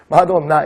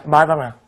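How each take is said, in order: First: "마돈나" with a clear O in the middle; Korean-style pronunciation. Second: "마다나" with the O opened to an A, low pitch; American pronunciation. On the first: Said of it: "그냥 우리식 발음이죠". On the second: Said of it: "미국식 발음은 어때요". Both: Shown as a demonstration.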